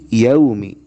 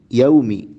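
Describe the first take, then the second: Both takes have the same delivery.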